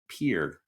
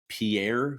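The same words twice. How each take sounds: First: The name is said the local way. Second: The name is said the familiar outsider way. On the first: The speaker calls it right. "is actually" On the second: The speaker calls it wrong. "What I thought was"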